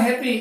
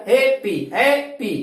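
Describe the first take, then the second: First: Said in the usual way. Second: happy said slowly in two separate beats; slow, teacherly two-syllable breakdown of happy; split into syllables. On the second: Shown as a demonstration. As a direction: break happy after the first syllable, drawing out each vowel. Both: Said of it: "দুটা vowel sound আছে".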